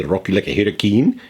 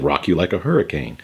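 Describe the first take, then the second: First: "Rock you like a hurricane" sung with a hammed-up country twang, louder; mock country twang. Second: Said in the usual way. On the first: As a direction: imitate a country singer drawling "hurricane". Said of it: "He didn't say". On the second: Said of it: "He said".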